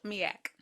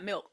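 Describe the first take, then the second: First: "Miak" as two vowels, mee-ak, no L; altered pronunciation. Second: Said in the usual way. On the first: Shown as a demonstration. Correcting co-host that it's not milk, "Miak" said mee-ack. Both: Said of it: "Not milk, Miak".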